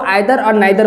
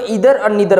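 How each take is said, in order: First: It is said in a British accent. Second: It is said in an American accent.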